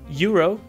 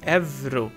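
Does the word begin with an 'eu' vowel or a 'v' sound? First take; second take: eu vowel; v sound. First: It begins with two vowels, like English 'euro'. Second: It has a 'v' sound after the first vowel. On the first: "pronouncing it the English way" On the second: "we pronounce it like a V"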